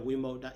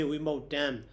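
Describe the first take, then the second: First: Vimukta ending on an open a; no nasal ending. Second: Vimukta said with an added final m; nasal ending. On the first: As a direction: say Vimukta without a final m. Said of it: "without Nighita Vimukta also". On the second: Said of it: "that is Nighita". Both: Shown as a demonstration.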